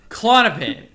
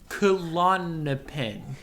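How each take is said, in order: First: The word is said fast. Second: The word is said slowly.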